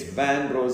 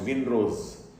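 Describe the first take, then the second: First: The first syllable sounds like 'van'. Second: The first syllable sounds like 'vin'. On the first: The speaker calls it right. "It's Van Rose, it's French" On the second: The speaker calls it wrong. "often mispronounced Vinrose"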